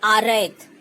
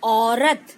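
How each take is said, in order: First: The r is followed by an 'ai' vowel. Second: The r is followed by no added vowel. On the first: The speaker calls it wrong. "र में अय की मात्रा लगा दी है" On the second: The speaker calls it right. "औ की मात्रा लगी है, औ, र रस्सी का और त तलवार का, तो औरत"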